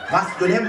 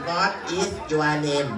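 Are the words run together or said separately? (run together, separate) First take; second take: run together; separate. First: The words are run together smoothly. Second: Each word is said separately and clearly. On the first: It sounds natural and fluent. The speaker calls it right. "พูดให้มันร่วม" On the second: It sounds rustic and unpolished. The speaker calls it wrong. "อย่าพูดชัด ... บ้านนอก"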